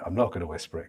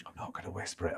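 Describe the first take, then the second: First: Said in the usual way. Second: Low, hushed undertone; mock whisper. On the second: Commentator joking back at a listener's "whisper it", hushed. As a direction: drop it right down as if whispering.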